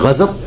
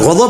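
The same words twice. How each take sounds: First: The middle consonant is a plain z sound. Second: The middle consonant is an emphatic d sound. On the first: This is the Urdu form. "Urdu में गज़ब, दाद को हम ज़ाद पढ़ देते हैं" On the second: This is the original Arabic form. "अरबी में गज़ब है"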